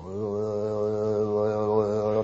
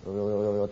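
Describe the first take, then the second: First: Slow, drawn-out eerie call; approaching ghostly call. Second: Lower, soft distant call; faint distant calling. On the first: Storyteller imitating the ghost voice coming closer, slow eerie call. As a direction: draw the call out as it comes nearer. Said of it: "って来るんですよ". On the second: Storyteller imitating the ghost voice far off, soft distant call. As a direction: call from far away, softly. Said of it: "遠くの方に声がしてましたよ". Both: Retold or imitated.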